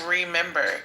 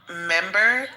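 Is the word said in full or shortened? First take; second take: full; shortened. First: The word is said with all its syllables. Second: The first syllable is dropped from the word. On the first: "it's remember" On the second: "Like I heard someone say member"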